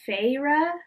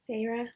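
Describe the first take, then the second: First: The first syllable sounds like 'fay'. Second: The name is said fast, like 'Farah'. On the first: "but it's Feyre" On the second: "when they say it fast, it just sounds like Farah"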